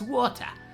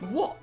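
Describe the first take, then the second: First: It is said with the T sound. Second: It is said without the T sound.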